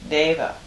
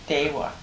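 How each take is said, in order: First: The middle consonant is a v sound. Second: The middle consonant is a w sound. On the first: "the Sanskrit word and the Pali word deva" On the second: "Tibetans pronounce it dewa"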